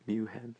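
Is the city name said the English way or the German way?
German. The name is said with a German pronunciation.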